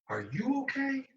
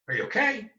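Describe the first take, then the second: First: It sounds genuinely concerned and caring. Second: It sounds perfunctory and dismissive.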